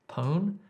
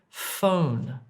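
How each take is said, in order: First: The word begins with a p sound. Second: The word begins with an f sound. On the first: The speaker calls it wrong. "Don't say pon if you want to say phone" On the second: The speaker calls it right. "if you want to say phone"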